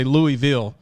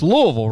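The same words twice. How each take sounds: First: Louisville said as "Louie-ville"; old pronunciation of Louisville. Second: Louisville said as "LOO-uh-vull"; local pronunciation of Louisville. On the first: Host showing how he used to say it, Louisville as "Louie-ville". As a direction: say Louisville with a clear "ee" and a full "ville". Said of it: "I used to say Louisville". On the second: Host checking with coach, Louisville as "LOO-uh-vull". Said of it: "but it's Louisville". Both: Shown as a demonstration.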